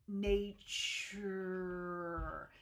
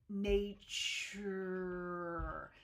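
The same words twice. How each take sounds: First: The t blends with a following y sound. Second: The t blends with a following y sound.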